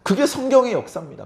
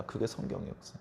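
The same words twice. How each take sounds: First: Said in the usual way. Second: 그게 성경의 역사 breathed in a whisper; whispered echo. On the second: Shown as a demonstration. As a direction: let it fall to a whisper. Whispered echo of line 111. (속삭이듯 되뇌기)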